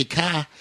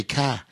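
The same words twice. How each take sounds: First: "car" said softly the New Zealand way; quiet New Zealand "car". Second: "car" said softly the Australian way; quiet Australian "car". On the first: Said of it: "in New Zealand, they say". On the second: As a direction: demo "car" in an Australian accent. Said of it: "in Australia, they say". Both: Shown as a demonstration.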